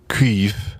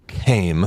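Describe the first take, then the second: First: It starts with a KW sound and ends in F. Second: It rhymes with 'same', ending in an M sound. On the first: The speaker calls it right. "but it's pronounced, I guess" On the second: The speaker calls it wrong. "it looks like came"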